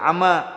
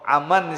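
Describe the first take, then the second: First: The word ends with a long a vowel. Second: The word ends with an n sound.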